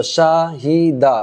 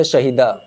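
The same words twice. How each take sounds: First: Slow spelling-out. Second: Shahida said quickly as one smooth word; quick reading. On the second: Teacher showing pupils the quick reading of Shahida. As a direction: run Shahida together quickly, no stretching. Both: Shown as a demonstration. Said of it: "اس کو ہم جلدی سے پڑھیں گے".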